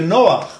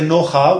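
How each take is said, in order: First: The word ends on the throaty sound after a vowel. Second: The word ends on a vowel after the throaty sound. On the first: The speaker calls it right. "we say Noach" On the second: The speaker calls it wrong. "we don't say Noha"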